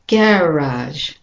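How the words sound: It is said with a British pronunciation. "The British and Australian is garage"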